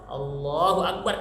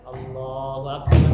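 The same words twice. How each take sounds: First: It is said firmly and with energy. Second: It is said drowsily, without energy.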